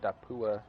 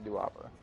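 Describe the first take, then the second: First: The name is pronounced Dapua. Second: The name is pronounced Duwapa. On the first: The speaker calls it right. "I think it's Dapua" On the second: The speaker calls it wrong. "I say Duwapa... continue to say it wrong"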